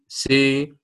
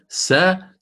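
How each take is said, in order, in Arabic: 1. الحركة مائلة نحو صوت 'i'. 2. الحركة صوت 'a' مفتوح. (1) "الكبرى هي أن تقرب الفتحة من الكسرة" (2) "عوضا أن تقول سا"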